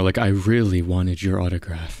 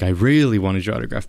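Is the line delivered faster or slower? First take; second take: slower; faster. First: The line is delivered at a slower pace. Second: The line is delivered at a faster pace. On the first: The speaker calls it right. "I should have probably slowed it down a little more" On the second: The speaker calls it wrong. "So I was like"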